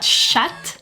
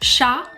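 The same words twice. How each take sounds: First: The final t is pronounced. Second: The final t is silent. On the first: The speaker calls it wrong. "and not" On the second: The speaker calls it right. "you're not going to pronounce it either"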